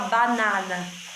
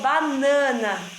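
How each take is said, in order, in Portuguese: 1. A primeira vogal é aberta e oral. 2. A primeira vogal é nasal. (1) "Você não fala banana" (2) "quando o A tá antes da letrinha N, ele dá esse som de nhã também"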